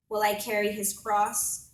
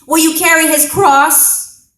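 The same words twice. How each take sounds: First: Said in the usual way. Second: Very loud, high, full-force shout; Roman soldier's scream. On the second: Acted. Roman soldier to a bystander at the crucifixion, screaming. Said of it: "the Roman soldier screams in my face".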